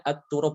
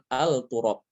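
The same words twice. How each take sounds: First: At-turab with the lam merged into a doubled t. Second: Al-turab with the l pronounced before the t; wrong clear lam. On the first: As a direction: say at-turab with idgham. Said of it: "Dia dibacanya at-turab". (at-turab, lam dilebur ke ta (idgham)) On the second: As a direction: say al-turab as the mistaken form. (al-turab, lam dibaca jelas (salah)) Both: Shown as a demonstration.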